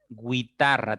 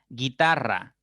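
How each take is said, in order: First: The u after the g is sounded. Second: The u after the g is silent. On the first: The speaker calls it wrong. "tendrías que pronunciar para que sea diptongo" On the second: The speaker calls it right. "no es diptongo"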